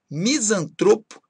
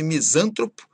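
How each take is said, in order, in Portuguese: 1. A tônica está na penúltima sílaba. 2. A tônica está em outra sílaba. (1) "palavras que são paroxítonas" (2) "e nada de"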